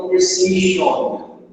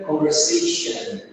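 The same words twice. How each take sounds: First: "conversation" slowly, last syllable a full "on"; wrong "on" ending. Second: "conversation" with a reduced "shun" ending; correct "an" ending. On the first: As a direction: end "conversation" in a clear, rounded "shon". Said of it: "Muita gente acaba falando conversation, com esse on". ("conversation" com "on" bem marcado no final) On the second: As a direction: weaken the last vowel of "conversation" to a schwa. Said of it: "a gente pronuncia com som de an no final". ("conversation" com som reduzido de "an" no final) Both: Shown as a demonstration.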